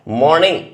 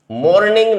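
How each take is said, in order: First: मॉर्निंग with a light r, said clearly and firmly; correct pronunciation. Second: मॉर्निंग said the wrong way, raised as a warning; wrong pronunciation shown. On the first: Teacher gives students the correct मॉर्निंग, clear and firm. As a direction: model the right मॉर्निंग. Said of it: "इसकी जो pronunciation होती है". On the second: Teacher warns students against a wrong मॉर्निंग, mock-raised. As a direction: show students how not to say मॉर्निंग. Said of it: "मॉर्निंग नहीं बोलना". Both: Shown as a demonstration.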